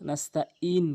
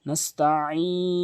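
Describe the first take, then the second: First: The middle consonant is a light glottal catch. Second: The middle consonant comes from deep in the throat. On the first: The speaker calls it wrong. "আইনের জায়গাটি হামজা এনে উচ্চারণ করে" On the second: The speaker calls it right. "আইনের উচ্চারণ হলকের মাঝখান থেকে"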